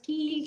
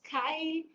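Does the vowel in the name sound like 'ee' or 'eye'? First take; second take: ee; eye. First: The vowel sounds like 'ee' in 'see'. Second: The vowel sounds like 'eye' in 'my'. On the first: "someone pronounce it as Keel" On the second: "some pronounce it as Kyle"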